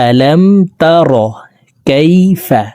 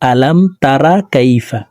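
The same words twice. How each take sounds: First: The r in tara is heavy and full. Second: The r in tara is light and thin. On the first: The speaker calls it right. "রকে মোটা করে উচ্চারণ করতে হবে" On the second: The speaker calls it wrong. "আমরা অনেকে এইভাবে পড়ে থাকি"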